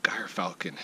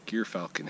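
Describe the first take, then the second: First: Gyr said to rhyme with "fire"; alternative pronunciation. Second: Gyr said to rhyme with "ear"; alternative pronunciation. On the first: Birder unsure of the falcon's name, gyr pronounced "GUY-er". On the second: Birder trying the falcon's other name, gyr pronounced "geer". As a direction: say gyr as "geer", one syllable. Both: Real, not acted. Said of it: "I don't know how it's pronounced".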